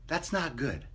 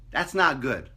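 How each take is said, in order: First: Softer, muttered again; quiet repeat. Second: Said in the usual way. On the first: Shown as a demonstration. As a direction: drop the volume on it.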